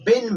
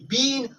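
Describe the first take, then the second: First: The vowel is short, like in bin. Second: The vowel is long, like in bean. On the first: The speaker calls it right. "बीन और बिन में आसमान और जमीन का फर्क है" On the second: The speaker calls it wrong. "आपने इसको प्रोनाउंस बीन नहीं करना है"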